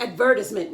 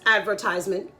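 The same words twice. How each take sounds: First: It is said with a fancy, put-on pronunciation. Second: It is said with a plain, everyday pronunciation. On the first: The speaker calls it wrong. "people try to get fancy" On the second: The speaker calls it right. "No, it's advertisement"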